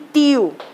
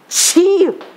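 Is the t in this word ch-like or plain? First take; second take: plain; ch-like. First: The t is a plain, crisp stop. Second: The t sounds hissy, close to ch. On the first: "o pernambucano faz tá, té, ti, tó, tu. Tapete é igual a tio" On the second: "O carioca faz o quê?"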